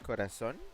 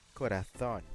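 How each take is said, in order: First: The z is pronounced like an s. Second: The z is pronounced like a th. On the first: This is the Latin American pronunciation. "here in Latin America we say it as corazón" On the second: This is the pronunciation used in Spain. "In Spain they say corazón. They actually use the freaking lisp"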